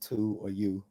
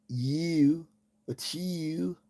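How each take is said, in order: First: Said in the usual way. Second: "You" and "to you" said the Baltimore way, vowel twisted; Baltimore pronunciation. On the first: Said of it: "cannot pronounce". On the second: Shown as a demonstration. Showing how Baltimoreans say "to you" in accent. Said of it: "people in Baltimore cannot pronounce "to" or "you".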